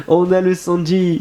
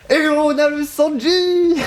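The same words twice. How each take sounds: First: Said in the usual way. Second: Excited. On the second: Real, not acted. Hyped reaction to a new character.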